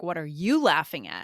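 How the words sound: It sounds accusatory, with stress on 'you'. The listener has no right to laugh. "if you emphasize "you," it could sound really accusatory"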